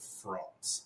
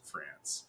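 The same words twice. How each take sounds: First: "France" with a broad ah, like "Frahnce"; mock-pretentious "France", long open ah; affected pronunciation. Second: "France" with short a, rhyming with "dance"; soft, low "France" with the short English a; anglicized pronunciation. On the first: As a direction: imitate her saying "France" as "Frahnce". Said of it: "every time she called it France". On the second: Shown as a demonstration. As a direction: plead for plain English "France", a as in "cat". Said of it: "please just pronounce it France".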